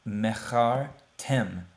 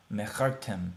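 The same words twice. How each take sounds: First: Mechar, short stop, then tem, slowly; pause after Mechar. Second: Said in the usual way. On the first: Shown as a demonstration. Teacher splits the word for students: Mechar, pause, tem. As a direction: break "Mechar tem" at the shva. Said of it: "stop and to pause for a second". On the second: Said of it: "we're not gonna pronounce it".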